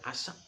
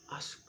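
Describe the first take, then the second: First: An extra vowel is heard between S and K. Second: No extra vowel; the S and K are faint.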